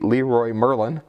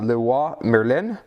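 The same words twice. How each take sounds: First: The name is said with an English accent. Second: The name is said with a French accent. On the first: "the horrible English pronunciation" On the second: "pardon my French, it's not very good"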